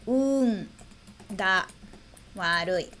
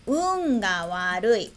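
First: "Un ga warui" split into separate words with long pauses. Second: Slow, careful reading of "Un ga warui"; slow example read. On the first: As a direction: break "Un", "ga", "warui" apart for learners, each dropping lower. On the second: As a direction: say "Un ga warui" slowly, as a model sentence. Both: Shown as a demonstration. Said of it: "E o último exemplo".

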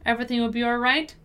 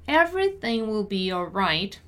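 First: Brisk natural-speed read; fast, connected model sentence; quicker repeat. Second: Measured, careful teaching read; deliberate pronunciation model. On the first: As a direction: run the words together quickly. Teacher repeats at quicker pace. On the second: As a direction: say it unhurriedly for learners. Teacher models sentence slowly first. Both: Shown as a demonstration.

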